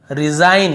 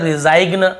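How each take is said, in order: First: Said in the usual way. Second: रिजाइग्न with a hard G before the N; G wrongly sounded. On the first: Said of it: "रिजाइग्न ऐसे नहीं पढ़ रहे". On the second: Shown as a demonstration. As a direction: voice the silent G in रिजाइग्न. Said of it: "ऐसे नहीं पढ़ रहे".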